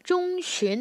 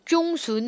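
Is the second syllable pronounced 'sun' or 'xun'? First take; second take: xun; sun. First: It is said the Chinese way, ending in 'xun'. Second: It is said the Korean way, ending in 'sun'. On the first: The speaker calls it right. "X U N 쉰 발음합니다" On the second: The speaker calls it wrong. "중순 하시면 안 돼요. 그러면 한국어 발음이지"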